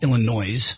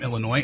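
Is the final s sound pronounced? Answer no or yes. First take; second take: yes; no. First: The final s is pronounced. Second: The final s is silent. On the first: The speaker calls it wrong. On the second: The speaker calls it right.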